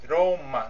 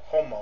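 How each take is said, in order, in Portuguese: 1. É pronunciado do jeito japonês. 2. É pronunciado do jeito português. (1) "pode ler-se Roma" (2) "não Roma"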